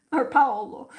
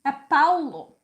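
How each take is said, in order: First: "Paolo" said the Italian way, louder. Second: "É Paulo" in Portuguese, a lilting "Pow-loo"; Portuguese "Paulo", said louder. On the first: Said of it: "I'm not Italian to be called Paolo". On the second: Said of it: "Paolo is Portuguese". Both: Shown as a demonstration.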